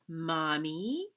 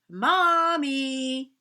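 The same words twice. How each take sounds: First: It is said very quietly. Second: It is said a little louder.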